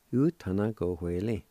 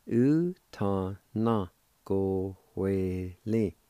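First: Said in the usual way. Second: Slow, each syllable of "u ta na go hue li" drawn out; slow demo. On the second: Shown as a demonstration. Teacher putting the Cherokee word for ledger together slowly. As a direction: join the parts slowly for the learners. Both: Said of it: "And together".

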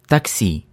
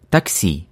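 No difference in how they are said.

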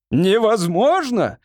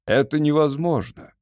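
First: High, drawn-out incredulous exclamation; indignant cry. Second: Said in the usual way. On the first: A narrator's reading. Lord echoes the wizard's refusal, indignant cry. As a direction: cry it back slowly, pitched up in outrage. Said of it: "вскричал лорд Фейт".

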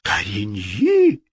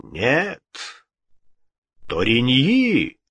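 First: Drawn-out echo of dismay; despairing. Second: Ghostly voice. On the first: King repeating the ghost's choice, despairing. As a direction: repeat the name slowly in despair. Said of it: "повторил Генрих с выражением отчаяния". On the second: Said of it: "отвечал голос". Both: A narrator's reading.

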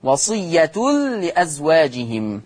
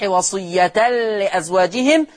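First: وصية as wasiyyatul-li, recited into لأزواجهم; damma on ta. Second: وصية as wasiyyatal-li, recited into لأزواجهم; fatha on ta. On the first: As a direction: give وصية a "u" ending, merged into the lam. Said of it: "أما ورش فيقرأ بالضم". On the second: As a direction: give وصية an "a" ending, merged into the lam. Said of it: "حفص يقرأ بالفتح". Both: Shown as a demonstration.

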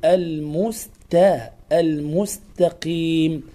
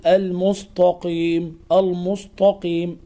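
First: "المستقيم" with thin, fronted t; light ta. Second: "المستقيم" with dark t, al-mustaqim thickened; ta made emphatic. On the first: Teacher gives correct form, thin t in "المستقيم". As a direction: keep the t of "المستقيم" light, slowly. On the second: Teacher shows the error, heavy t in "المستقيم". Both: Shown as a demonstration. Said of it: "لا تنطق التاء طاء".

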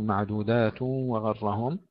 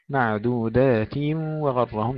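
First: "معدودات وغرهم" with the kasra slipping toward damma; wrong reading. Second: "معدودات وغرهم" with a full kasra before merging into the waw; slow, clear kasra in "معدودات وغرهم"; correct reading. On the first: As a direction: demo the wrong "معدودات وغرهم", vowel rounded. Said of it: "لا نقول". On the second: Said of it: "نحقق الكسر". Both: Shown as a demonstration.

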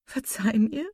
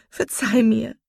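First: Higher, tentative plea with rising end; pleading. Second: High, loud burst of remorse; impassioned cry. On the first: Marian asks her hurt sister's forgiveness, pleading. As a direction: beg forgiveness, lifting the last word. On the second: Marian begs her sister's forgiveness, impassioned cry. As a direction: cry it out, pressing on "verzeih". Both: A narrator's reading. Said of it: "rief sie".

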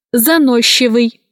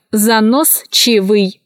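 First: Заносчивый said as занощивый; SCH as Щ. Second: Slow заносчивый, cut as занос-чивый; spelling pronunciation. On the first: Teacher showing how заносчивый is pronounced, merged Щ. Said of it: "произносится". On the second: Teacher showing how заносчивый is written, spelled-out reading. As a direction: sound С and Ч apart in заносчивый. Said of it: "Пишется". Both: Shown as a demonstration.

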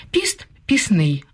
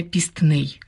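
First: Пісний said with no т, just піс-ний; пісний pronounced without the т sound; simplified consonant cluster. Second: Пістний said with the т pronounced, піст-ний; пістний with an audible т, the wrong form; wrong cluster. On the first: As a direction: drop the т in пісний. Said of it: "Наприклад". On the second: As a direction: sound the т in пістний. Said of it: "а не". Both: Shown as a demonstration.

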